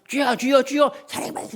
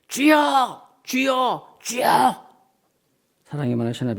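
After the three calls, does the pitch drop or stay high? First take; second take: stays high; drops. First: The pitch steps up and stays high. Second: The pitch drops after the raised calls.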